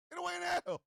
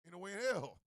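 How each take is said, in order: First: High-pitched comic refusal; emphatic disbelief. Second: Said in the usual way. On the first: Acted. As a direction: push the refusal up high, scandalized. Repeats refusal, raised.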